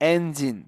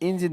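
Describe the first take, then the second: First: The word begins with an 'e' vowel. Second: The word begins with an 'i' vowel. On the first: The speaker calls it right. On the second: The speaker calls it wrong. "ইঞ্জিন না"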